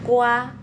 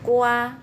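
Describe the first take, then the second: Both takes have the same delivery.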